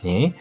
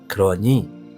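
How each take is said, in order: First: The word is shortened to two syllables. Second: The word is said in full, three syllables. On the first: The speaker calls it wrong. "이 근이는 대체 어디 사투리죠?" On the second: The speaker calls it right. "발음을 좀 표준어로 제대로 써볼게요"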